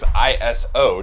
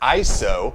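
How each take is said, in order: First: It is said as three separate letters. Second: It is said as one whole word. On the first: "the three letters" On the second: "invented a new word"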